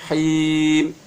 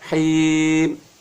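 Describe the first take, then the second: No difference in how they are said.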